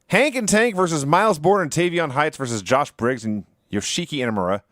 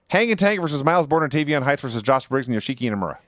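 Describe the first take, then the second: First: It is said at a normal pace. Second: It is said as fast as possible.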